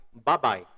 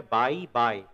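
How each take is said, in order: First: "Bye bye" as a quick "ba-BAI"; "Bye bye" with clipped first vowel, "ba bye"; correct reduced form. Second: Slow "bye bye" with two full "bai" sounds; drawn-out "bye bye", neither vowel reduced; wrong pronunciation. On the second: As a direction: stretch both words of "bye bye" as full "bai". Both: Shown as a demonstration. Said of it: "Não é bye bye".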